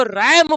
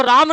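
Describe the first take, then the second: First: रैम with a short flat "ae", like English ram; correct reading. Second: राम with a long open "aa", like the name Raam; wrong reading. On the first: Teacher showing students the right reading, "ram". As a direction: say रैम as "ram", the sheep word. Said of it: "इसको रैम पढ़ते हैं". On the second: Teacher showing students the wrong reading, "raam". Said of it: "इसको राम नहीं पढ़ते हैं". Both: Shown as a demonstration.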